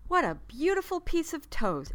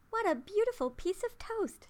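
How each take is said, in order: First: Higher, louder little toaster voice; proud exclamation. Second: Put-on much higher, thrilled little girl; delighted cry. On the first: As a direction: praise it like a proud teacher. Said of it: "exclaimed Toaster". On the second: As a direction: gasp with delight at the toast. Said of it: "she cried". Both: A narrator's reading.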